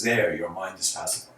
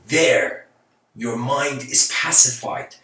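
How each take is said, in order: First: Said in the usual way. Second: There stretched out slow and firm, then settled; a master's calm pronouncement, slow and deliberate; calm, slow and weighty. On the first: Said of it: "And he doesn't say it like that". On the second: Shown as a demonstration. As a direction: land each word slowly like a gentle verdict. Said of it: "He says it".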